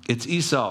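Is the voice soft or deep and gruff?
soft. It is said in a soft, gentle voice. The speaker uses his own natural voice. "Jacob had more of a softer voice"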